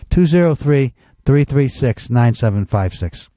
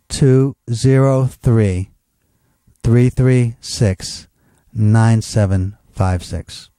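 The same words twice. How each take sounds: First: The number is said at normal speed. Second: The number is said slowly.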